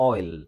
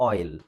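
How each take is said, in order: The two takes are said the same way.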